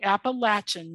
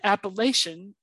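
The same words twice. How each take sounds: First: It is said the local Appalachian way. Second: It is said the way outsiders say it.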